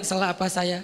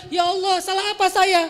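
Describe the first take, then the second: First: Said in the usual way. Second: Much higher and louder protest of "salah apa saya"; aggrieved outburst at God; mock indignant complaint. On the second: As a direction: whine it up as an offended demand. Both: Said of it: "kok malah dibalik".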